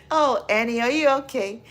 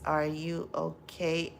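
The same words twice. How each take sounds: First: Sung, belted out loud and high, pop-song style. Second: Said in the usual way. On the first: Retold or imitated.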